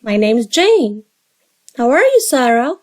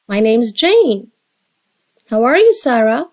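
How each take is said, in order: Both takes have the same delivery.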